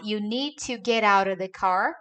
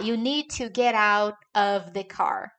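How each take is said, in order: First: The words are run together and reduced. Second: Each word is pronounced separately and fully. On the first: The speaker calls it right. "muito mais fácil falar" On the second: The speaker calls it wrong. "do que falar"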